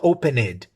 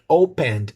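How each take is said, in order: First: The word ends with more than a small d. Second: The word ends with just a small d sound. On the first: The speaker calls it wrong. "not opened" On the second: The speaker calls it right. "Just a, a small d"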